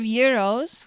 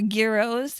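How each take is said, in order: First: The word begins with a 'y' sound. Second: The word begins with a 'j' sound. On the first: The speaker calls it right. "We serve euros" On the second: The speaker calls it wrong. "We don't serve gyros or gyros"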